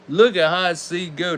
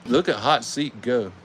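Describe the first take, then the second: First: Higher and brighter, cheering the car on; excited. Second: Said in the usual way. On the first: Real, not acted. Host cheering the toilet car down the track, excited. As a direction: hype it up as the car flies.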